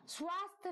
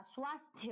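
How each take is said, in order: First: Swasthya without its final ya; swasth, the ya ending left off; wrong form swasth. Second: Swasthya with the ya ending sounded; swasthya, final syllable kept; correct swasthya. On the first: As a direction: cut swasthya short to swasth. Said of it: "नहीं होता". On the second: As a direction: show the full thya at the end of swasthya. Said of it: "होता है". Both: Shown as a demonstration.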